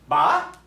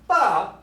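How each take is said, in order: First: The pitch rises on the syllable. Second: The pitch falls on the syllable. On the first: "you can hear the pitch of the voice go up" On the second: "the pitch of the voice go down"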